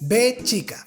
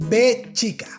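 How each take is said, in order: The two takes are said the same way.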